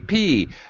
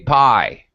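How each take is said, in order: First: The vowel sounds like 'ee', as in 'pee'. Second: The vowel sounds like 'eye', as in 'pie'. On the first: This is how speakers of many other languages say it. The speaker calls it wrong. "many people ha- say P" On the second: This is how it is said in English. The speaker calls it right. "but in English we say pi"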